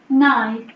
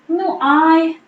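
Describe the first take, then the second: First: It is squeezed into one short syllable. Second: It is said as two separate words. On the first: "It will turn to nai" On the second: "nu ai will turn to what?"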